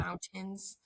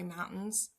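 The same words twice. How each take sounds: First: The middle T sound is clearly pronounced. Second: The middle T sound is dropped. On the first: "I don't say" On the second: "never pronounced my T's"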